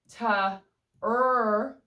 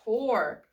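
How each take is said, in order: First: The vowel is an er sound. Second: The vowel is the or sound. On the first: The speaker calls it wrong. "O R can say er" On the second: The speaker calls it right. "it is the O R E that makes that or sound"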